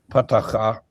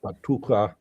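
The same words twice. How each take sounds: First: "patacha" with ah in every syllable; original pronunciation. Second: "patucha" with oo in the middle; Syriac pronunciation. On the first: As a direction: say "patacha" with an ah in the middle, not oo. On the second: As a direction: say "patucha" with a long oo, ending in ah. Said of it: "depending how you pronounce Syriac". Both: Shown as a demonstration.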